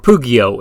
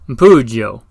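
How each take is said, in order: First: It is pronounced the way it is spelled. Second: It is said with an Italian-style pronunciation.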